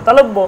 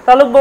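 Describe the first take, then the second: No difference in how they are said.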